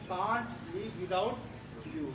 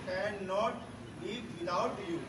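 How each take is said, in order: First: The negative is contracted into one short word. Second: The negative is said in full as two words.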